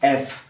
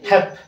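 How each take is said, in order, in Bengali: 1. এটি স্বরধ্বনি দিয়ে শুরু হয়, যেমন eff। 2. এটি h ধ্বনি দিয়ে শুরু হয়, যেমন hep। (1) "It's F" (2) "most of the students they read this letter like hep"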